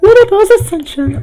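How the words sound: It is said in a put-on Mario voice.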